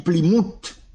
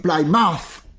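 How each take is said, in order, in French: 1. Le nom se prononce avec des sons français. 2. Le nom se prononce avec des sons anglais. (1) "Soit prononcer en français, ou dit Plymouth" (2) "Mais soit prononcer en anglais, ou dit Plymouth"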